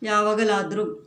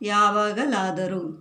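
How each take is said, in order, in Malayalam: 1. ഒരു അക്ഷരം ഒഴിവാക്കി വേഗത്തിലാണ് പറയുന്നത്. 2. ഓരോ അക്ഷരവും പൂർണ്ണമായി ഉച്ചരിച്ച് പതുക്കെയാണ് പറയുന്നത്.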